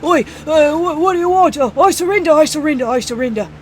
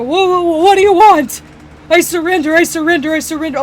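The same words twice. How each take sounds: First: Put-on high, loud panicked "Oi" accent; panicked yelping in a put-on accent; corrected accent. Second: High, loud panicked pleading; panicked surrender. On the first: Store owner redoes surrender to goblins, panicked in put-on accent. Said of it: "wrong, wrong, uh, accent". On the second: Acted. Store owner on the ground surrenders to goblins, loud panic. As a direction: yelp it out in alarm, begging to surrender. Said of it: "he'll just sit there and go".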